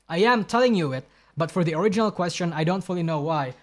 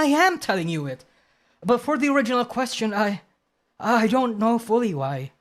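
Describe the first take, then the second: First: It is read in the speaker's own voice. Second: It is read in a put-on Deku anime voice.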